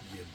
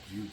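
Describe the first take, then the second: First: The name has a short i vowel. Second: The name has a long oo vowel. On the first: The speaker calls it right. "but I guess it's pronounced Jib" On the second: The speaker calls it wrong. "I pronounced it Jube for longest"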